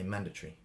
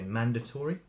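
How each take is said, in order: First: It is said in a traditional British accent. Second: It is said in a non-British accent.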